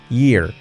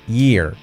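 Both takes have the same delivery.

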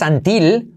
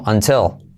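First: No L is heard at the end. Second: A slight L is heard at the end. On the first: The speaker calls it wrong. "No digas until" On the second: The speaker calls it right. "Con una pizquita de L al final"

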